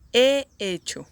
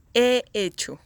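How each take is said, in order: Both takes have the same delivery.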